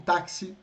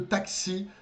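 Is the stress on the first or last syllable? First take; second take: first; last. First: The stress is on the first syllable. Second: The stress is on the last syllable.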